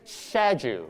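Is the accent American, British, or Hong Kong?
British. It is said in a British accent. "British accent"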